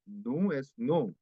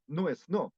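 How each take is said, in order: First: No es no slowed, each word cut apart with gaps; slow, separated no es no; choppy learner version. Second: No es no run together smoothly as one unit; fluent linked no es no; linked correct version. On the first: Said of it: "se pronuncia como no es no". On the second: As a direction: link no es no without breaks. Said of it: "Debería ser". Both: Shown as a demonstration.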